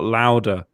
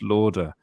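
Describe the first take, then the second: First: The first vowel sounds like 'loud'. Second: The first vowel sounds like 'law'. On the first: The speaker calls it wrong. "not louder" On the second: The speaker calls it right. "It's Lauder"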